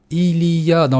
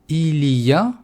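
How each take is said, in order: No difference in how they are said.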